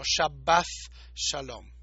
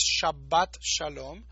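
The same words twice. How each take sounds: First: Shabbath Shalom, th between the teeth; precise th ending. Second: Shabbat Shalom with sh and a hard t; plain sh, t ending. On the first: Teacher gives the precise Shabbath Shalom. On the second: Teacher sets the usual Shabbat Shalom against the precise one. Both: Shown as a demonstration. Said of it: "si queremos ser bien precisos".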